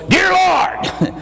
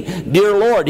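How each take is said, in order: First: Dear Lord barked much higher like a drill sergeant; man just saved shouting his first prayer like a drill sergeant. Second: Said in the usual way. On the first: Retold or imitated. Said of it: "He was a drill sergeant". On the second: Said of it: "Now just repeat after me".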